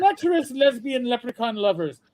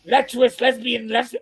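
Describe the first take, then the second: First: Lilting put-on Irish announcement; Irish accent. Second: Mock-appalled repeat of the phrase; upset mother imitation. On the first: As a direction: announce it with a comic Irish brogue. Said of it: "the Saint Patsy's one". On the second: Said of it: "Vivian was very upset".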